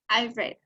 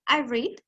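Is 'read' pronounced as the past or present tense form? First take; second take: past; present. First: The word is said in its past-tense pronunciation. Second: The word is said in its present-tense pronunciation. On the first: I read at some time before now. "y en pasado digo" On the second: I read regularly now. "en presente"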